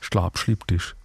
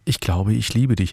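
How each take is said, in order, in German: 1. Es wird im Pfälzer Dialekt gesagt. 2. Es wird in Standarddeutsch gesagt.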